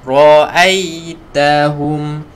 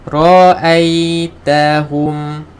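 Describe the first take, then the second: Both takes have the same delivery.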